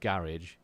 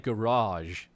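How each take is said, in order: First: Garage is said the British way. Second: Garage is said the American way. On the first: It is the speaker's normal home pronunciation. "which I would normally say" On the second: It is the word used when living in the US. "I say garage instead of"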